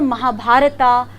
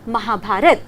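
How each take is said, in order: First: The name ends with an added 'a' vowel. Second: The name ends on the final consonant. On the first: The speaker calls it wrong. "Like this we should not read" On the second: The speaker calls it right. "We should exactly से महाभारत"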